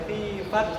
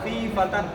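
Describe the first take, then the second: First: The last word ends in a clipped t sound. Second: The last word ends in a t sound plus n. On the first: "ऐसा भी नहीं पढ़ सकते" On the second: "ऐसा करके हम यहाँ पर सांस नहीं तोड़ सकते हैं"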